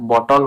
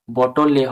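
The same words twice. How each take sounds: First: বটল ending on L, bo-tol; silent E. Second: বটল এ run together as bo-tol-le; mistaken sounded E. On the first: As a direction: close বটল on the L, no final vowel. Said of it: "বটল উচ্চারণ হচ্ছে". (বটল-এর শেষে ই অনুচ্চারিত) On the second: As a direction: add an "e" vowel after the L in বটল এ. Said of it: "বটল এ হচ্ছে না". (বটল এ-র শেষে এ ধ্বনি যোগ করে) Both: Shown as a demonstration.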